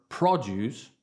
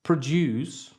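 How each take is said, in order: First: Produce, stress on the first syllable, PROD-yooce, slowly; noun produce. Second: Produce, stress on the second syllable, pro-DUCE; verb produce. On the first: Teacher contrasting the noun form, stress on PRO. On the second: Teacher contrasting the verb form, stress on DUCE. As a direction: say produce as the verb, pruh-DOOCE. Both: Shown as a demonstration. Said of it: "or produce".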